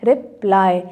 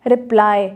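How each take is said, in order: First: "रिप्लाई" in two beats, रिप, then लाई; split into syllables. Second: Said in the usual way. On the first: Shown as a demonstration. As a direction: say "रिप्लाई" with a short gap after रिप. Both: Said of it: "again टू में".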